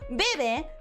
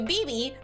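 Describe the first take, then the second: First: The name is pronounced with Spanish vowel sounds. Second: The name is pronounced with English vowel sounds. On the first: "that's how I would say it in Spanish" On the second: "that's how I would say it in English"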